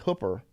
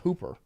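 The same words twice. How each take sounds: First: It sounds different from the everyday word 'hooper'. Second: It sounds like the everyday word 'hooper'. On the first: This is how the speaker personally says the name. "But I say Hooper" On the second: This is how most people say the name. "a lot of people call it Hooper because it's spelled like a Hooper"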